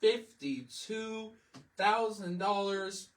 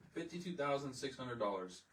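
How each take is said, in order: First: "Fifty-two thousand dollars," drawn out slowly and pitched high and loud; stressed price. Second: Said in the usual way. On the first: Real, not acted. Telling viewers the car price, slow, high, stressed. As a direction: stretch every syllable of "Fifty-two thousand dollars," in disbelief.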